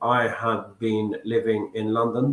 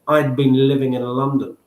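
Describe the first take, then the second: First: The word had is said in full. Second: The word had is contracted to d. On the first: The speaker calls it wrong. "They don't say" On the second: The speaker calls it right. "They say"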